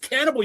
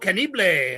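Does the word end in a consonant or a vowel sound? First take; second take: consonant; vowel. First: The word ends on the consonant sound. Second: The word ends with an extra vowel sound. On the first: The speaker calls it right. "That word doesn't exist. It's cannibal" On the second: The speaker calls it wrong. "he used to call it Ultimo Mundo Cannibale"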